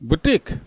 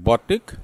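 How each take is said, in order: First: It is said like 'booteek', long final vowel. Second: It is said like 'botik', short final vowel. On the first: The speaker calls it right. "सही pronunciation क्या है मैं बताऊंगा" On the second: The speaker calls it wrong. "इसको ऐसे ही गलत से बोलते हैं"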